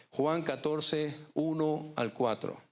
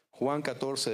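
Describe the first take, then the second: First: Juan catorce and uno al cuatro spelled out slowly and higher; preacher pressing the reference home, slow and raised; slow emphatic reference. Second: Said in the usual way. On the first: Shown as a demonstration. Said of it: "repeats verse reference slowly". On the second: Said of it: "repeats verse reference".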